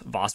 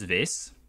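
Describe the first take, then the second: First: The vowel is open, rhyming with boss. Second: The vowel is long, rhyming with face. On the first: "I just said Voss" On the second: "most people pronounce it Vase"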